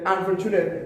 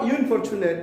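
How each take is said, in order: First: The word begins with an 'uh' sound. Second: The word begins with an 'in' sound. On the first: The speaker calls it right. "বাউল sound হচ্ছে আ" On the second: The speaker calls it wrong. "Not"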